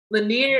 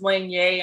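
First: Said in the usual way. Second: "Lanier" said the Cajun French way; Cajun French pronunciation. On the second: Shown as a demonstration. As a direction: pronounce "Lanier" as a French family name, New Orleans style. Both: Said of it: "is pronounced Lanier".

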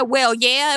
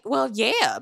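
First: Louder, pointed "well, yeah"; emphatic admission. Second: Said in the usual way. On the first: Retold or imitated. Recapper shows how Robin admitted neglect, louder and pointed. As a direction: own up to it with force, as if meaning hell yeah. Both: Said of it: "But the way she said".

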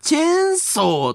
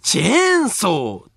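First: チェーンソー without the stress on チェ, Japanese accent; flubbed accent. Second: チェーンソー slowly, stress on チェ and ソ; correct accent. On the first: Botching the promised ending, chainsaw without the accent. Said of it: "絵にアクセント置くの忘れたやん". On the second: Vowing to use the listener's correct accent, American chainsaw accent. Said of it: "正しいアクセントで". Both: Shown as a demonstration.

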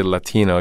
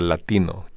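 First: "Latino" said the anglicized American English way; "Latino" with flat American vowels and an English r-less t; English pronunciation. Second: "Latino" pronounced as in Spanish, la-TEE-no with pure vowels; Spanish pronunciation. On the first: Host says the word the usual American way. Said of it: "you didn't say Latino". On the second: Host says the word as a Spanish speaker would. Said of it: "you said Latino". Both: Retold or imitated.

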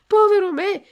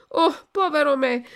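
First: Much higher, much louder wail on povero; desperate shout. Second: Higher, louder anguished cry. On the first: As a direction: wail it out at the top of the voice. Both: A narrator's reading. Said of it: "gridò Pinocchio".

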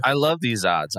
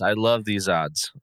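First: Excited. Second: Slow deadpan. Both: Shown as a demonstration.

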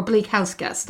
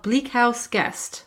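First: Bleak House Guest, leaning on Bleak; corrected title with Bleak most prominent; stress on Bleak. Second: Bleak House Guest, leaning on House; slow title with House most prominent; stress on House. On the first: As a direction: put the weight on "Bleak". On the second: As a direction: put the weight on "House", slowly. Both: Shown as a demonstration. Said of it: "I think I should probably say".

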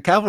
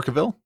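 First: "Cavill" said the first of two ways; first pronunciation. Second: "Cavill" said the second of two ways; alternative pronunciation. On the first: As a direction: offer "Cavill" as one possible pronunciation. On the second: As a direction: offer "Cavill" as the other possible pronunciation. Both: Shown as a demonstration. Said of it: "is it Cavill or Cavill?".

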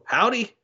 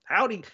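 First: Higher, drawn-out Southern Texas "Howdy"; Southern accent. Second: Higher Southern Texas "howdy" settling down; Southern accent. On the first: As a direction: imitate a kid putting on a Texas or Alabama accent, "Howdy" with a rise. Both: Retold or imitated. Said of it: "He, he talked with an accent".

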